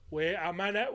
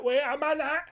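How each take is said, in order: First: Said in the usual way. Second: Wait a minute jumps much higher; rising disbelief. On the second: Shown as a demonstration. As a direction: pitch the second one up in disbelief.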